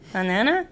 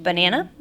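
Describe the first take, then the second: First: The word is said with air escaping through the nose. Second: The word is said with normal resonance. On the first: The speaker calls it wrong. "it's all coming out of my nose" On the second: The speaker calls it right. "sounds kind of normal"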